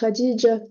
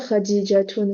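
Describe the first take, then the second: First: The name ends with the -tun ending dropped. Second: The name ends with a pronounced -tun ending. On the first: This is how the name is actually said. The speaker calls it right. "vous dites Khadija" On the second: This is the full written form of the name. The speaker calls it wrong. "vous dites pas Khadijatoun"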